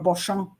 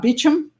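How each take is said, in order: First: The name is said the French way. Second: The name is said the American way. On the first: "which is uh, French" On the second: "the American way"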